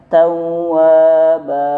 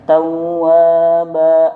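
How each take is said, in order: First: The final vowel is held and released smoothly. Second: The final vowel ends in a glottal catch. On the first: The speaker calls it right. "bacanya dilepas tapi dua harokat" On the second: The speaker calls it wrong. "itu salah, ada seperti hamzah"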